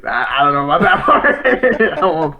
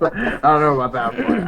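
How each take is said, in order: First: Laughing through the words; chuckling while saying it. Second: Said in the usual way. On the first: Real, not acted. Said twice, first through laughter.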